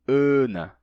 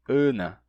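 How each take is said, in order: The two takes are said the same way.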